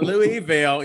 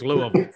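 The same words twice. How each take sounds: First: Louisville is pronounced the Mississippi way. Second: Louisville is pronounced the Kentucky way. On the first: This is not how the Kentucky city is named. The speaker calls it wrong. "It's not Louisville" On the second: This is how the Kentucky city is named. The speaker calls it right. "So in Kentucky, it's Louisville"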